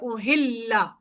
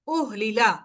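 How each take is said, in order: First: The l sound is doubled and held. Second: The l sound is single, not doubled. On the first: This is the merged form used in reading. "इदगाम कर दिया तो हमारा बन गया ओहिल्ला" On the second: This is the original form before merging. "Word था ये ओहलीला था"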